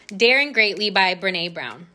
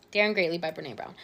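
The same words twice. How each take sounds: First: Careful naming. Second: Daring Greatly by Brené Brown said fast and softer; quick repeat. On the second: Podcaster repeating the book title to herself, fast and soft. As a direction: toss the title off again quickly, under the breath. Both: Shown as a demonstration. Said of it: "I'm hoping that I'm saying her name correctly".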